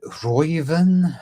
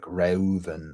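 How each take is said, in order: First: "Reuven" said as ROY-ven; slow, raised "Reuven", first syllable like "Roy"; German pronunciation. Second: "Reuven" said as REH-oo-ven; "Reuven" sounded out letter by letter, eh then oo; phonetic pronunciation. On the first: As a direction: say "Reuven" with an oy sound, questioning. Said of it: "if that's German, is it Reuven". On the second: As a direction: split the eu in "Reuven" into two vowels. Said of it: "It's not gonna be phonetically like". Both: Shown as a demonstration.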